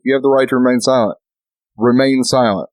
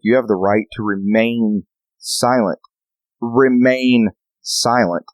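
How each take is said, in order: First: Mock cop warning. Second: Slow, deliberate remain silent; lightly voiced stern cop; mock cop warning. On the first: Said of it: "I was like". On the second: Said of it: "that cop's like".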